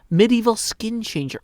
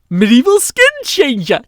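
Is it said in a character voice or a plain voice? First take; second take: plain voice; character voice. First: It is said in the speaker's ordinary voice. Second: It is said in a put-on Midwestern character voice. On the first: The speaker calls it wrong. "Oh, no, I'm sorry. I need to do a B O O voice" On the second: The speaker calls it right. "He's got kind of that Midwestern flair to him"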